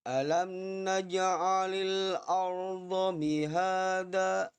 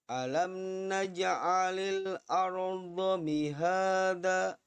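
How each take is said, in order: No difference in how they are said.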